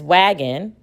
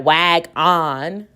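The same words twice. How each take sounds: First: Said in the usual way. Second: Slow "wag on", "on" said like "ahn"; drawn-out "wag on", both syllables stressed; wrong full vowel. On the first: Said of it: "we know what this word is". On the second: Shown as a demonstration. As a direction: split "wag on" in two with a full short o. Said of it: "It's not wag on".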